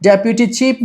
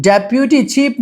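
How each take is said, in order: The two takes are said the same way.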